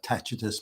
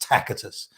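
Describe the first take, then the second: First: The middle consonant is a ch sound. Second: The middle consonant is a hard k sound. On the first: This is the Italian pronunciation. "their pronoun- pronunciation of the C is a ch" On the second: This is the ancient Latin pronunciation. "the C was pronounced as a hard C or, or a K"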